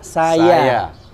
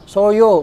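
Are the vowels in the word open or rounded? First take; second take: open; rounded. First: The vowels are said with an open mouth. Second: The vowels are said with rounded, pushed-out lips. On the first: The speaker calls it right. "Saya itu pasti dibuka" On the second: The speaker calls it wrong. "Nggak mungkin misalkan jadi monyong"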